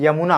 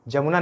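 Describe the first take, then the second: First: The word begins with a 'y' sound. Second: The word begins with a 'j' sound. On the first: The speaker calls it right. "यमुना होता है" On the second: The speaker calls it wrong. "जमुना कोई नाम नहीं है, जमुना नहीं"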